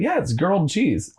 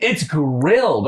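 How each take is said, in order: First: Put-on "girled" said as gurled, the r before the vowel; insisting on "girled" like a kid who never knew better; childhood mispronunciation. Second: "grilled" said with gr at the start, the correct way; correcting him: "grilled", not girled; correct pronunciation. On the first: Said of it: "I just said it like that". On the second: Retold or imitated. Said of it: "They're like".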